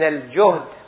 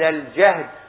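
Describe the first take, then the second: First: The first vowel is u. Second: The first vowel is a. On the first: "بالضم" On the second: "بالفتح"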